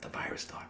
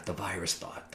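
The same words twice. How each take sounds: First: Breathy whispered echo of "the virus thought"; whispered "the virus thought", creeping in. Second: Much softer, dropping down low; quietly naming "the virus thought"; hushed. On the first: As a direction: whisper it like a nagging voice. Echoing the thought in a hush. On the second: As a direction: let it fall to a hush. Describing the thought always there. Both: Real, not acted.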